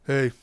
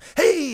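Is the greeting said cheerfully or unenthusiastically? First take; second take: unenthusiastically; cheerfully. First: The greeting is said unenthusiastically. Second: The greeting is said cheerfully.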